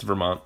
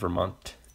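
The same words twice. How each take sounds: First: The final T is slurred and soft. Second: The final T is crisp and hard. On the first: This is how locals say it. The speaker calls it right. "We don't pronounce our hard consonants all that well. We just kind of slur through them" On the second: This is how outsiders say it. The speaker calls it wrong. "not Vermont"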